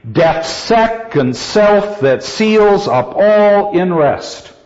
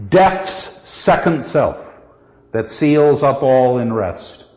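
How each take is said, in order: First: Slow, raised chant hitting "second", "self", "seals", "all", "rest"; hammered iambic beat. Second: Slow reading with "Death's" weighted as a stressed opening word; extra accent on DEATH'S. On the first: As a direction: hammer every other syllable: death's SEC-ond SELF that SEALS up ALL in REST. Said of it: "in terms of the hammered out iambic pattern". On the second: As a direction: open on a spondee, "Death's" as heavy as "second". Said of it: "We need one other accent on what?". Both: Shown as a demonstration.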